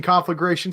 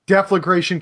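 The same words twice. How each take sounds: First: Conflagration said with con at the start and rising; insisting on his own conflagration with a rise; his own word. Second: Deflagration said carefully with de at the start; repeating Deflagration the way he was corrected; corrected word. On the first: Shrugging off the correction, he says conflagration with a rise. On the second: Man corrected on a term repeats Deflagration deliberately. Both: Shown as a demonstration. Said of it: "That's deflagration, sir".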